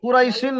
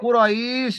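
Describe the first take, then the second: First: The word ends with an added vowel and n. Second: The word stops on the final sh sound. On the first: The speaker calls it wrong. "কুরাইশিন নয়" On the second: The speaker calls it right. "ওখানে থামতে হবে"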